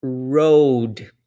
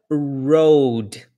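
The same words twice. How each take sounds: First: Road again with a curled American R; second model take of road for learners to copy; English R demo. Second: Road with an American retroflex R; English R demo. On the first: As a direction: repeat road, curling the R. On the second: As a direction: say road, curling the tongue back for the R. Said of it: "A primeira palavra". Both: Shown as a demonstration.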